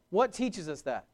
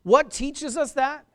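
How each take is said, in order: First: Said in the usual way. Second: Loud, high rhetorical question; preaching call. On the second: Acted. Preacher challenging the congregation, loud and high.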